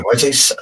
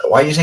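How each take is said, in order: First: Said in the usual way. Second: Pitched-up why do you say with say rising; incredulous higher repeat; 1 rising question. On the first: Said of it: "Why do you say Saudi?". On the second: Shown as a demonstration. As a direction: push up on say, higher and louder.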